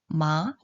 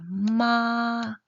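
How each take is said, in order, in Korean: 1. 중간에서 높은 쪽으로 올라가요. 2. 높고 평평하게 유지돼요. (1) "그리고 이성은요?" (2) "일성입니다"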